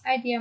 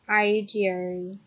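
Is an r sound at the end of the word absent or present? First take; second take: absent; present. First: The word ends without an added r sound. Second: The word ends with an added r sound.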